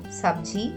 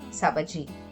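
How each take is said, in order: First: There is no vowel between b and j. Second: There is a vowel between b and j. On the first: The speaker calls it right. "making it to sound Sabji" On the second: The speaker calls it wrong. "instead of Sabaji"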